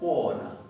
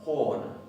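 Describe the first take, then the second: No difference in how they are said.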